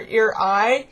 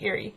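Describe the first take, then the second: First: The name sounds like ear eye. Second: The name sounds like Lake Erie. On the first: The speaker calls it wrong. "which really bugged me" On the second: The speaker calls it right. "like Lake Erie"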